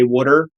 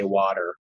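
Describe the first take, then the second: First: Water is said with the local Delaware accent. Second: Water is said without the local Delaware accent. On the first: This is how most local people say it. "most people here say water" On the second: This is the way the speaker has chosen to say it. "I'm going to say water"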